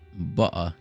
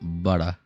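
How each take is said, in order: First: It is said in a British accent. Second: It is said in an American accent. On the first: "it's not British either, because that'd be butter" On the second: "not butter"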